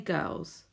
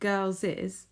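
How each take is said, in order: First: It is said as one syllable, girls. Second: It ends with an extra syllable, like girlses. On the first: The speaker calls it right. "but we say girls" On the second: The speaker calls it wrong. "It's almost like you can pronounce it girls'"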